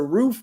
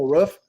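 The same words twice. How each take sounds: First: The vowel is long, like in 'food'. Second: The vowel is short, like in 'ruff'. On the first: The speaker says it this way. The speaker calls it right. "It's a roof, homie" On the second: Someone else says it this way. The speaker calls it wrong. "You sound like a dog barking, bro. It ain't a roof"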